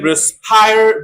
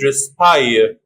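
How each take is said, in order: First: It is said in an American accent. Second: It is said in a British accent.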